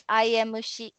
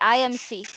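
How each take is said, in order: First: The letters are said with Japanese pronunciation. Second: The letters are said with English pronunciation. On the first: "in Japanese pronunciation we say I M C" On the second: "in English we say I M C"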